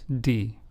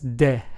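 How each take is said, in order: First: The letter name has an English sound. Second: The letter name has a Spanish sound. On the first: The speaker calls it wrong. "and not d" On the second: The speaker calls it right. "in Spanish is pronounced as de"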